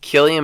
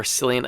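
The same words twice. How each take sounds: First: Cillian with a hard K, KILL-ee-an; hard-C pronunciation. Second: Cillian with an S sound, SILL-ee-an; soft-C pronunciation. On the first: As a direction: say Cillian starting with a K sound. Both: Shown as a demonstration. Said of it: "I don't know how you say it".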